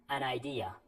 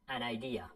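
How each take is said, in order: The two takes are said the same way.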